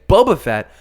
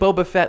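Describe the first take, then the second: First: The stress falls on the word Boba. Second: The stress falls on the word Fett. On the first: This is the odd way the character shouts it. "in kind of a weird intonation" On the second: This is how people normally say the name. "like we always say with the emphasis on the Fett"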